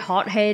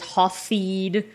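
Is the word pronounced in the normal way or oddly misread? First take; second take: normal; misread. First: The word is pronounced in its normal way. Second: The word is pronounced in an odd, misread way.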